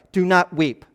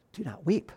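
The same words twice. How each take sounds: First: Said in the usual way. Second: "Do not weep" said much softer, almost breathed out; gentle hush. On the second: Retold or imitated. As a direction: soothe a grieving mother quietly. Preacher re-says Jesus' words gently.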